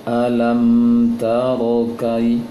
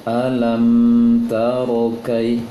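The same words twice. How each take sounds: The two takes are said the same way.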